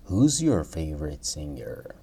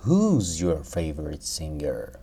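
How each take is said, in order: First: Whispered repeat of the question; teacher whispers the model question. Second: Said in the usual way. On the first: Shown as a demonstration. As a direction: say it again in a whisper. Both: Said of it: "teacher repeats model question".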